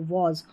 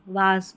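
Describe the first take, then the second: First: The vowel is a rounded 'aw' sound. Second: The vowel is an open 'ah' sound. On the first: The speaker calls it right. "वॉज पढ़ना होता है इसको" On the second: The speaker calls it wrong. "कई लोग पढ़ते हैं वाज वाज, बहुत गलत उच्चारण होता है"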